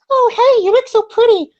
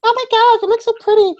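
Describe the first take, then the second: First: High, louder mock girly gush; high falsetto girl cooing a compliment. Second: Put-on girly voice. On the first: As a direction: gush it like a fake-sweet girlfriend. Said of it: "I'm trying to do your voice". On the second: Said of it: "They're like".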